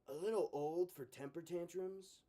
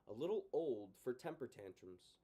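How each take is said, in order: First: It is read in a put-on character voice. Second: It is read in the narrator's normal voice.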